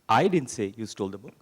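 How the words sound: The stress is on "I".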